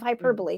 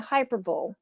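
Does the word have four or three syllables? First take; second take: four; three. First: It is said hy-PER-bo-lee, four syllables. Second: It is said like hyper-bowl, three syllables. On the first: The speaker calls it right. "instead of" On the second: The speaker calls it wrong. "for years saying hyperbole"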